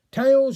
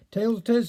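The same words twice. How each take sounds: First: Called out higher and louder; shout. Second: Said in the usual way. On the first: A narrator's reading. Richard Henry calling the penny toss, shouted. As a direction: shout out the coin call. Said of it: "shouted Richard Henry". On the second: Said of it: "said Feather".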